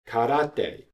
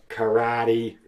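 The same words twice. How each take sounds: First: It is said with Japanese pronunciation. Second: It is said with American English pronunciation. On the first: "from another Japanese word" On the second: "in American English"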